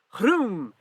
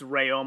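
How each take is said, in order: First: The name sounds like a racing engine's vroom. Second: The name is said as two plain syllables. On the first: The speaker calls it wrong. "like he's a race car driver" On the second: The speaker calls it right. "So it's Rayom"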